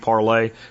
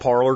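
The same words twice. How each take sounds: First: It is said the French way, like parley. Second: It is said the English way, as spelled. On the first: "the French pronunciation would be Parler" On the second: "I'm going to call it Parler because it's how it's spelled"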